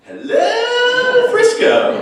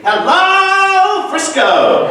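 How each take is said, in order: First: High, loud show-tune belt as a punchline. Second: High, loud, brassy show-tune belt of a greeting. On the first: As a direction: belt it out like a Broadway star. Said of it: "and I said". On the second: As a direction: belt it like a Broadway diva. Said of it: "this soundbite of [name] saying". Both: Retold or imitated.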